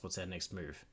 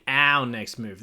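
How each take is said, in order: First: Reading the AI's line, stress on "our"; calm "our" in the AI's question; AI companion line. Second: "our" hit loud and offended; indignant stress on our. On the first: Acted. Streamer reading the AI companion's question calmly. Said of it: "What do you mean, our next move?". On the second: Real, not acted. Streamer mocking the AI's question, indignant. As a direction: throw "our" back at it, outraged. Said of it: "What do you mean".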